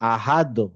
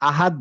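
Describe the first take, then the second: First: The final consonant ends with a bouncing release. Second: The final consonant stops flat with no bounce. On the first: The speaker calls it right. "একটু বাউন্সি হবে" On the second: The speaker calls it wrong. "আহাদ না"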